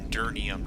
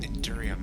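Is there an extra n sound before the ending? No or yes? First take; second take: yes; no. First: It is said with an extra n sound. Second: It is said without an extra n sound. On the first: The speaker calls it wrong. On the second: The speaker calls it right.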